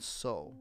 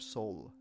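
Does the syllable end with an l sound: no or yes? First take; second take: no; yes. First: The syllable ends on a bare vowel. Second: The syllable ends with an l sound. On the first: "So it starts on so" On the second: "or sol, as sometimes we say"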